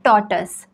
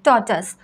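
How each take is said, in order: First: The second syllable sounds like 'tus'. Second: The same.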